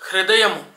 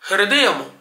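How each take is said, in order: Both takes have the same delivery.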